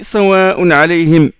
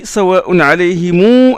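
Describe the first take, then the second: First: The final m is cut short with no vowel. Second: The final m is extended with an added u vowel. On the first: The reciter stops on this word. "s'il s'arrête sur alayhim ... Il ne prolonge pas" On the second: The reciter continues into the next word. "quand il met la liaison ... il prolonge le mime"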